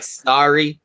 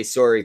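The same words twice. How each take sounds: First: "sorry" with an open AH vowel; American sorry. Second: "sorry" with a Canadian OR sound. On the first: Mocking how the others say it, "sorry" as SAR-ee. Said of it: "If you guys say it like sorry". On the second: Defending how Canadians say sorry, "sorry" with an OR vowel. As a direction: say "sorry" as SORE-ee. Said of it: "we are the ones that say sorry properly". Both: Shown as a demonstration.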